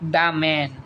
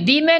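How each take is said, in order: First: 'The' is said with a short 'uh' vowel. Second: 'The' is said with a long 'ee' vowel. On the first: The speaker calls it right. "দা man. ... Very good" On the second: The speaker calls it wrong. "দি man না দা man?"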